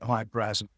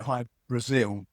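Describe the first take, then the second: First: The name is said the Irish way. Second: The name is said the common way. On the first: "the Irish would pronounce it Hy Brasil" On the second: "people pronounce it Hy Brazil"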